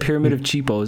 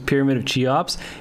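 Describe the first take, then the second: First: The name begins like the word cheap, Cheepos. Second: The name is said in its usual form, Cheops. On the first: The speaker calls it wrong. "He said pyramid of Cheepos, and it was hilarious" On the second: The speaker calls it right. "one of the answers was pyramid of Cheops"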